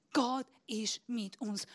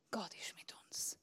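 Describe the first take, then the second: First: Said in the usual way. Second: Soft unvoiced whisper. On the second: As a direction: breathe it like a secret. Whispered, then repeated aloud. (geflüstert)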